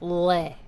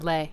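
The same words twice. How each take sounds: First: The L is dark, made far back. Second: The L is light, made at the front. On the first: "Like it's all back in here" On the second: "in English you say"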